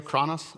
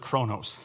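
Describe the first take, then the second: First: Chronos said KRAH-nus, open first vowel; short-o pronunciation. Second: Chronos said KROH-nohs, long o in both syllables; long-o pronunciation. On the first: Pastor checking a Greek word with Andrea, "chronos" as KRAH-nus. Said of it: "how you pronounce that". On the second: Pastor offering another Greek reading, "chronos" as KROH-nohs. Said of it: "or is it chronos". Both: Shown as a demonstration.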